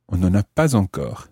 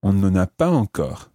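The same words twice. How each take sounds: The two takes are said the same way.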